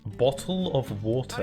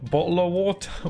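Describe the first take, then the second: First: It is said in a posh British accent. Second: It is said in a chavvy British accent. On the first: This is how the speaker normally talks. "I don't say it like that. I say it's like normal human people" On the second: This is how other people at school talked. "I never said it like that, but I, I knew a lot of people in school who would say it like that"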